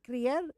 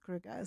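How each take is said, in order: First: The name is said with an Afrikaans pronunciation. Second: The name is said with an English pronunciation. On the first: "in Afrikaans, it's" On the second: "and English, it's"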